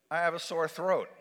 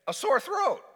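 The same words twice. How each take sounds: First: Said in the usual way. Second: High, emphatic exclamation; mock horrified outcry; alarmed repeat. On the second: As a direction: make "sore throat" a high-pitched alarm.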